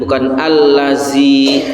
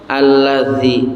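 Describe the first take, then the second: First: The consonant is a plain buzzing 'z' sound. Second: The consonant is a soft 'th' sound. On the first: The speaker calls it wrong. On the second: The speaker calls it right.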